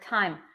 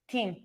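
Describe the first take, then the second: First: The vowel sounds like the 'eye' in 'time'. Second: The vowel sounds like the 'ee' in 'team'.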